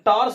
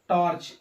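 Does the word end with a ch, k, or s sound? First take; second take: s; ch. First: The word ends with an s sound. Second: The word ends with a ch sound. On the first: The speaker calls it wrong. "टार्स नहीं पढ़ेंगे" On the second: The speaker calls it right. "क्या पढ़ेंगे, चा"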